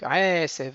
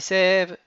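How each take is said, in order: First: The stress is on the first syllable. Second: The stress is on the last syllable. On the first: The speaker calls it right. "ils sont mille'el. Donc, aesev" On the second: The speaker calls it wrong. "et pas aesev"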